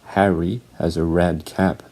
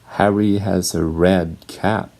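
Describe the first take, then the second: No difference in how they are said.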